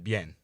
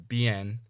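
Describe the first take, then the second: First: The i is a quick y-like glide. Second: The i is a full vowel, adding a syllable. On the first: The speaker calls it right. "say bueno and bien" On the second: The speaker calls it wrong. "instead of saying bueno or bien"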